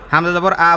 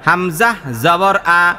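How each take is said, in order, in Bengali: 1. বাক্যাংশটি খুব দ্রুত ও সাবলীলভাবে পড়া হচ্ছে। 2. বাক্যাংশটি ধীরে ধীরে পড়া হচ্ছে। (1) "এরপর আরো চালু" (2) "ধীরে ধীরে বলছি"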